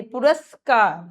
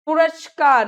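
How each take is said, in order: First: पुरस्कार with a clean s; slow, clear "puraskaar"; plain s inside पुरस्कार; s sound. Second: पुरस्कार with sh for s; hushing sh inside पुरस्कार; sh error. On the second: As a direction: say पुरस्कार wrongly as "purashkaar". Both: Shown as a demonstration. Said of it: "नहीं".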